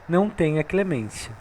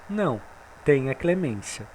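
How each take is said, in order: First: There is no pause after não. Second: There is a pause after não.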